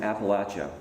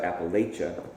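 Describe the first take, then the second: First: It is said the non-Minnesota way. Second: It is said the northern Minnesota way.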